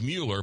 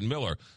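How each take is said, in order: First: The first syllable sounds like 'mule'. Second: The first syllable sounds like 'mill'. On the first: The speaker calls it wrong. "Looks like Mueller" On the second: The speaker calls it right. "but you pronounce it Miller"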